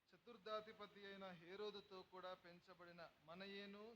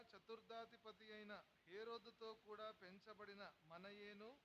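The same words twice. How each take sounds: No difference in how they are said.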